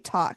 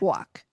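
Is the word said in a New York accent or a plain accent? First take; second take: plain; New York. First: The word is said in a plain accent. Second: The word is said in a New York accent. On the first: "Say talk" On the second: "She's very Brooklyn. She's very New York this time"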